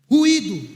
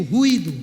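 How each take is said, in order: First: Louder call to repeat; crowd-leading shout. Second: Loud call for the crowd to repeat; preacher's loud call, lower; call and response. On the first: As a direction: punch it out so the church answers. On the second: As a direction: say it out loud, leading the congregation. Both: Shown as a demonstration. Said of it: "Repita comigo".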